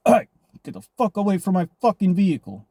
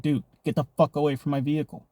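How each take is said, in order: First: Higher and louder retold yell; yelling at a stranger at the car door, retold; retold angry yell. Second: Said in the usual way. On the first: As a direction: bark him away from your car. Yelling at man trying car doors.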